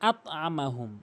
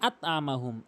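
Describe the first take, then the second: No difference in how they are said.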